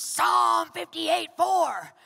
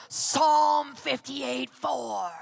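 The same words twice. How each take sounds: First: Slow, loud and higher booming reference; God's shout again, louder. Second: Slow, loud booming call of the verse; retold shout of God. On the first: Retold or imitated. Pastor repeats God's wake-up call, louder slow booming shout. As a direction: call it down even harder, word by word. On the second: Pastor retells God waking him at four, slow booming shout. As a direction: boom out each word like a voice from heaven. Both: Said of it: "he shouted this at me".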